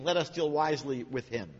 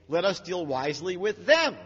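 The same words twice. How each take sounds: First: Said in the usual way. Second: Them leaned on a bit louder; stress on them. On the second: Shown as a demonstration. Teacher correcting the verse, stress on them. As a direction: lean on them, not him. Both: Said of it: "It should say".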